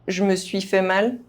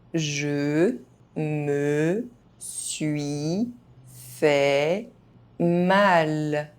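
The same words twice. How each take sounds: First: The phrase is spoken fast, sounds reduced. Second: The phrase is spoken very slowly. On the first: This is how native speakers say it. "fast, as a native speaker would do" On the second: Each syllable can be heard clearly. "very slowly"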